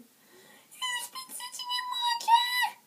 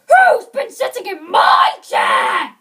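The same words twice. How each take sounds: First: It is said in a tiny wee voice. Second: It is said in a great big voice. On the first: "in his tiny wee voice" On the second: "in his great big voice"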